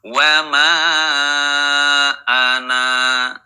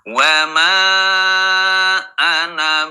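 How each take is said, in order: First: The final vowel of ana is held long. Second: The final vowel of ana is kept short. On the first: The reciter stops after this word. "Ketika wakaf dibaca panjang" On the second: The reciter continues without stopping. "ketika wasol dibaca pen pendek"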